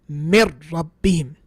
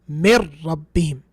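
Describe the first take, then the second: Both takes have the same delivery.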